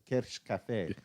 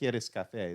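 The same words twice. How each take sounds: First: The s in queres sounds like sh. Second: The s in queres is a plain s. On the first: The speaker calls it right. "You just throw a ch on everything" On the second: The speaker calls it wrong. "not queres café"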